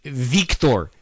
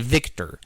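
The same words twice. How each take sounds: First: The name is said in an exaggerated, fancy way. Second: The name is said plainly, in the ordinary way. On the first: The name is spelled with a K. "you have to say it like that because it's spelled with a with with ... K" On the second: The name is spelled with a C. "if it was a C, I'd say Victor"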